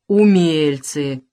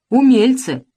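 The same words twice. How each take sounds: First: Растянуть «Умельцы» очень медленно; протяжно и насмешливо «Умельцы»; медленно, с насмешкой. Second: «умельцы!» громко и высоко; выкрикнуть «умельцы!» с насмешкой; громко, насмешливо. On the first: (атаман насмешливо тянет слово перед мальчишками) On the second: (атаман громко насмехается над мальчишками) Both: A narrator's reading. Разин насмешливо отвечает мальчишкам.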